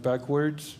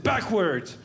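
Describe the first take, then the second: First: Mild surprised echo of the order; puzzled echo. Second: Short stern cop command; a hint of a stern officer; cop order. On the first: Retold or imitated. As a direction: repeat it back, thrown.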